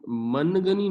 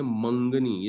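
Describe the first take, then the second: First: منگنی with a full clear n before the g; wrong pronunciation. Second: منگنی with the n nasalised as noon ghunna; correct pronunciation. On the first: Teacher showing students how not to read it, with a clear n. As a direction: say منگنی sounding out the n plainly, as the wrong way. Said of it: "ہم منگنی نہیں پڑھتے". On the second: Teacher showing students the right reading, nasal noon ghunna. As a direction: say منگنی letting the n melt into nasal sound. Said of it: "ہم اس کو پڑھتے ہیں منگنی". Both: Shown as a demonstration.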